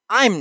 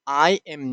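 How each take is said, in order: First: The two words merge into one syllable. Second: Both words are said separately and fully. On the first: "the contraction form" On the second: "the full form"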